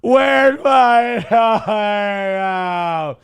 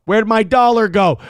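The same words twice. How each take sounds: First: Very slow, drawn out through laughter; laughing. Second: Said in the usual way. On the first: Real, not acted. Host hunting for a viewer's dollar, laughing slowly. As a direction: stretch it out while cracking up.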